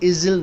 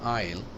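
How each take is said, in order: First: An s or z sound is heard mid-word. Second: No s or z sound is heard. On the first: The speaker calls it wrong. "इजिल नहीं पढ़ेंगे" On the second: The speaker calls it right. "Silent है इस आइल"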